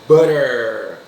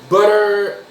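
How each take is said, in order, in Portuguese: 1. É dita com sotaque americano. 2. É dita com sotaque britânico. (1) "inglês americano" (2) "inglês britânico"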